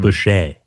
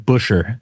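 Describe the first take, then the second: First: The name is said with a French pronunciation. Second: The name is said with a plain English pronunciation. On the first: This is how other people sometimes say the name. "I do get like a French pronunciation" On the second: This is how the name is really said. "It is Busher"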